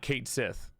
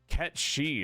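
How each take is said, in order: First: It starts like 'kate' and ends with 'sith'. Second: It starts like 'ket' and ends with 'shee'. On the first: The speaker calls it wrong. "I'm pretty sure it's not Kate Sith" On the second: The speaker calls it right. "is how it's pronounced"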